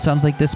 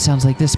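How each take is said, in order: First: A British accent with no breathiness. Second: A breathy voice with a British accent. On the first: "Canon is just British" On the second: "Kyrie is breathy, but also British"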